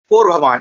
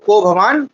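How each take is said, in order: First: There is an r sound after ko. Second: There is no r sound after ko. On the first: The speaker calls it wrong. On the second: The speaker calls it right.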